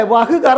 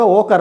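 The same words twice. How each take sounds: First: "വഹ് കർ" with the h sounded in വഹ്; full spelling pronunciation of "വഹ് കർ"; two separate words, "വഹ്" then "കർ"; as written. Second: "ഓ കർ" with വഹ് reduced to a plain o; spoken form. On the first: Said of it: "എന്ന് നമ്മൾ എഴുതും". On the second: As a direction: colloquial "ഓ കർ", no h sound. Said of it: "പക്ഷെ പറയുമ്പോൾ ഓ കർ എന്ന് പറയും". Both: Shown as a demonstration.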